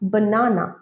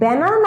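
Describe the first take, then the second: First: The first vowel is an open 'ah' sound. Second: The first vowel is the 'a' in cat. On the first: The speaker calls it right. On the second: The speaker calls it wrong. "ব্যানানা নয়"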